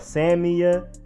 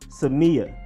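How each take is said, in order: First: The stress is not on the 'me' syllable. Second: The stress is on the 'me' syllable. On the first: The speaker calls it wrong. "or Samia" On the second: The speaker calls it right. "It is emphasis on the me"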